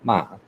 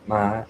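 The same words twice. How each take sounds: First: The pitch drops sharply downward. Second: The pitch stays high and level. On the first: "the dropping tone ma" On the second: "we have the high tone like ma"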